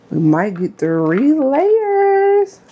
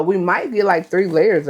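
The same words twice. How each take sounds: First: Stretched out, climbing to a high held note; playful sing-song. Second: Said in the usual way. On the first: Pretend. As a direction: draw every word out, rising very high. Playful repeat of her own line.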